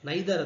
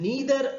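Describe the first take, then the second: First: The first vowel sounds like 'eye'. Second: The first vowel sounds like 'ee'. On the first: "ನೈದರ್ ಅಂತ ಕೂಡ ಹೇಳ್ತಾರೆ" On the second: "ನೀದರ್ ಅಂತ ಹೇಳಿದ್ರೆ"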